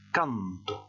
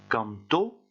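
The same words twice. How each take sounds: First: The stress is on the first syllable. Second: The stress is on the last syllable. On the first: I sing. "et après j'insiste sur le A" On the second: He sang. "Je vais commencer par insister sur le O"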